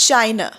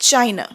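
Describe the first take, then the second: No difference in how they are said.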